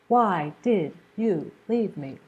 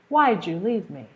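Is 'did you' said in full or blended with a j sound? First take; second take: full; blended. First: Every word is said fully and separately. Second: 'Did you' blends into a j sound. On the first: "he doesn't say" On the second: "He says, ... do you hear that j sound?"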